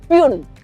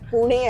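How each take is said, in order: First: It is one syllable, like 'pyoon'. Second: It is two syllables, like 'poo-neh'. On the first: An outsider mispronounced the city's name. The speaker calls it wrong. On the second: This is how locals say the city's name. The speaker calls it right.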